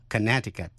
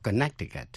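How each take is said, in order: First: Connecticut said "kuh-NET-i-kut", middle C dropped; silent middle C. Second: Connecticut said wrongly as "kuh-NEK-ti-kut"; mispronounced Connecticut. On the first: Teacher showing how the state is read, Connecticut with silent C. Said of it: "câm và đọc là". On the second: Teacher warning against a misreading, Connecticut with the C pronounced. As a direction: sound the middle C of Connecticut as K. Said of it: "chứ không đọc Connecticut". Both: Shown as a demonstration.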